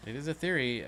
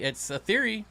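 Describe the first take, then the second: First: Said in the usual way. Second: "theory" said high and loud with a falling end; emphatic, high "It's a theory". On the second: Real, not acted. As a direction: lift the pitch and stress "theory". Repeats the phrase, high first time.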